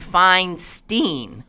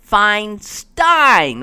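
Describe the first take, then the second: First: The last syllable has an 'ee' vowel. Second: The last syllable has an 'eye' vowel. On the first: The speaker calls it wrong. "with a long E" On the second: The speaker calls it right. "with a long I, which happens to rhyme with Einstein"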